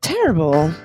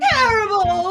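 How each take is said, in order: First: It is said like a secretive spy. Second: It is said in an overdramatic melodrama style.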